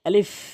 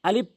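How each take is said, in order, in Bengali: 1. এটি দাঁত ও ঠোঁট দিয়ে বাতাস ঠেলে দিয়ে বলা হয়। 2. এটি দাঁত ও ঠোঁট দিয়ে বাতাস ঠেলে না দিয়ে বলা হয়। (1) "এটি সঠিক উচ্চারণ হচ্ছে আলিফ। ... এভাবে বাতাস বের করে" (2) "আলিফ বললে হবে না, ভুল উচ্চারণ।"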